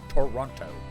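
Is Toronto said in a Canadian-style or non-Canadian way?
non-Canadian. It is said the non-Canadian way. "instead of Toronto"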